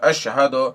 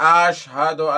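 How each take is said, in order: First: The first vowel is short. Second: The first vowel is drawn out long. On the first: The speaker calls it right. "बल्कि अशहदो ... कहना चाहिए" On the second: The speaker calls it wrong. "अशहदो की जगह पे आशहदो ... ये भी सही नहीं है"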